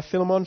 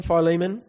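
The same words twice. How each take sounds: First: "Philemon" said FILL-uh-mon; "Philemon" stressed on the first syllable; alternative pronunciation. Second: "Philemon" said fy-LEE-mun; "Philemon" with a long i, then LEE; long-vowel pronunciation. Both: Shown as a demonstration. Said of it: "however you want to say it".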